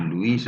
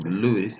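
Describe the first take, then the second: First: Luis as lu-IS, stress on the long final i; feminine-name pronunciation. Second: Louis as LU-is, stress on the first syllable; masculine-name pronunciation. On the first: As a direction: say Luis like French Louise. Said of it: "Luis es el femenino". (Luis pronunciado lu-ÍS, con la i acentuada) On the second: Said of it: "Louis el masculino". (Louis pronunciado LÚ-is, acento al principio) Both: Shown as a demonstration.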